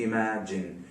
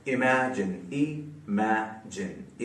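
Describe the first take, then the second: First: Said in the usual way. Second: imagine very slow and soft, in three pieces; syllable by syllable. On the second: Shown as a demonstration. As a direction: break imagine into i, ma, jin with gaps. (Imagine को तीन हिस्सों में रुक-रुक कर) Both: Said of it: "तीन syllables वाला word".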